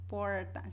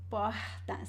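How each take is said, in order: First: The R is curled back like English R. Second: The R is breathy, like an English H. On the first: This is how people in cities outside the capital speak. "people use the retroflex R, which is similar to the English R" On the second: This is how people from Rio de Janeiro speak. "it is more aspirated... similar to the sound of the H in English"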